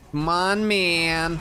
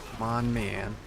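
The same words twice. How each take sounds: First: Higher, louder come on; real pleading cheer; excited urging. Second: Said in the usual way. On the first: Real, not acted. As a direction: push the game along eagerly. Urging game on.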